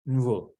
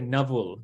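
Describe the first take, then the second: First: The n runs straight into the v. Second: A vowel sound comes between n and v. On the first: The speaker calls it right. "but it's actually nvul" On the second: The speaker calls it wrong. "we just give another akara, so we say navul. But that's not actually how you say it"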